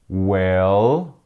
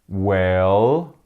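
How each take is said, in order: Both takes have the same delivery.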